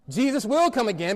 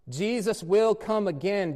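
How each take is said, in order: First: It is said at normal speed. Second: It is said slowly and deliberately.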